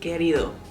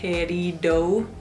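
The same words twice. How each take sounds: First: The D is said the Spanish way. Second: The D is said like an English D. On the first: The speaker calls it right. "es querido" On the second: The speaker calls it wrong. "la palabra querido no se dice querido"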